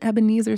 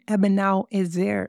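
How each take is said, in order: First: The name is said the familiar English way. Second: The name is said with its Hebrew pronunciation. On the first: The speaker calls it wrong. "It is not an Ebenezer stone" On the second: The speaker calls it right. "It's an Ebenal Ezer stone"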